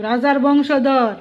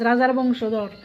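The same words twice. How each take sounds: First: রাজার বংশধর drawn out slowly, each word weighted; respectful emphasis. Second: Said in the usual way. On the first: Shown as a demonstration. A vlogger demands respect, saying রাজার বংশধর slowly and deliberately. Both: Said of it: "একটু সম্মান দো".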